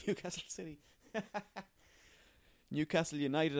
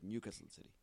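First: Giggling through the club name; laughing at own slip. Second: Said in the usual way. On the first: Real, not acted. Podcaster laughing at his own wrong club name. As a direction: laugh it off and correct yourself. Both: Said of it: "I meant to say".

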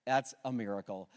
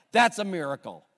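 First: Softer, lower hushed restatement; quiet awe. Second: Louder, ringing declaration; emphatic proclamation. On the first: Pastor letting the truth settle on the church, hushed. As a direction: let it sink in gently. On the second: Pastor declaring to his church, emphatic and loud. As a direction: proclaim it to the whole room. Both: Real, not acted.

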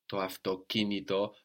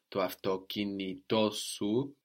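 First: Avtokinito with the stress on ki; accent on ki. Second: Avtokinitosu with the stress pulled onto to, slowly; accent moved to to. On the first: Teacher showing the original stress to a learner. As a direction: land on the third syllable from the end of avtokinito. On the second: Teacher showing the possessive shifting the stress. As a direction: push the stress one syllable right in avtokinitosu. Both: Shown as a demonstration. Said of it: "that can pull the accent towards it".

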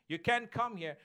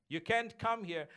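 No difference in how they are said.

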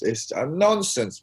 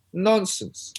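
First: Said in the usual way. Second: "Nonsense" punched higher and louder, falling at the end; emphatic repeat. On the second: Real, not acted. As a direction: hit "Nonsense" hard, high and louder.

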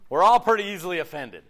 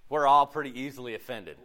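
First: "We're all" hit louder, falling away on "offended"; emphatic repeat. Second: Said in the usual way. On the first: Real, not acted. Preacher repeating a point to the church, emphatic on "all".

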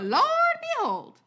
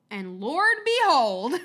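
First: Much higher, slow, hammed-up southern "Lord behold"; southern accent. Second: Slow, louder southern drawl on "Lord behold"; hammed-up Southern preacher exclamation; southern accent. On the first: Asking the host to judge his southern accent, hammed-up drawl. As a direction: go big with a Southern drawl, stretching it out. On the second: Showing off a southern accent to the host, slow and loud. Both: Shown as a demonstration. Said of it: "That's my southern accent".

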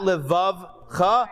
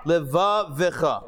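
First: Levavcha said slowly with the middle vowel dropped, lev-av-cha; wrong reading. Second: Levavecha said slowly with the extra e, le-va-ve-cha; correct reading. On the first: Teacher showing students the mistake, slow Levavcha. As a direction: show the wrong way, Levavcha squeezed into three syllables. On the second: Teacher showing students the right way, slow Levavecha. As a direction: give Levavecha all four syllables. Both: Shown as a demonstration. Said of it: "the star indicates that you go Levavecha".

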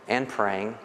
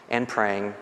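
Both takes have the same delivery.

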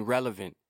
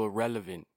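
First: Relevant, corrected and said plainly; self-correction. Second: Slipped word irrelevant, said by mistake; slip of the tongue. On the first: Ranting podcaster corrects himself to relevant, plain. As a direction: fix the slip and land on relevant. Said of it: "I mean, relevant". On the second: Ranting podcaster fumbles the word, says irrelevant by mistake. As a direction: accidentally say irrelevant instead of relevant. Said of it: "Re-, I mean, relevant". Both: Real, not acted.

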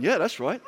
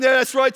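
First: Amused agreement. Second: Louder laughing agreement. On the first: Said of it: "some of you are going". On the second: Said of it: "But you're saying". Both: Retold or imitated.

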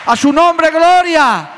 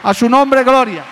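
First: Very high, loud cry of glory; climactic praise shout. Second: Loud, high cry of glory; shouted praise. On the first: Preacher crowning his sermon with a high, loud shout. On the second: Preacher shouting praise to the congregation, loud and high. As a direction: call out his name in praise. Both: Real, not acted.

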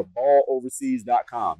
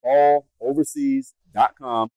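First: Said in the usual way. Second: Balloverseas dot com drawn out at half speed and louder; slow, emphatic repeat. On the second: Shown as a demonstration. Host repeating the website for viewers, slow and emphatic. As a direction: spell out balloverseas dot com slowly so it sticks. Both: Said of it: "Yes, you heard me right".

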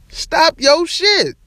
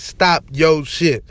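First: High, slow, stretched scold with a fall on shit; high drawn-out scold on shit; drawn-out catchphrase. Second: Lower, slow, firm scold with the stress on Stop; slow catchphrase. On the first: Catchphrase aimed at Grayson Allen. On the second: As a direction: lay it down slowly, hitting Stop. Catchphrase hashtag read out. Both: Acted.

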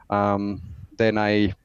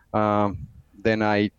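The two takes are said the same way.

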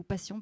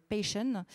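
First: "Passion" said the French way, pa-syon, quick; French pronunciation. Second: English accent. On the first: Host translating the title for listeners, French "Passion". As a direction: repeat "Passion" plainly in French. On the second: Host naming the song, English-accented "Passion". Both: Shown as a demonstration. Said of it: "pour ceux qui ne comprennent pas mon accent anglais".

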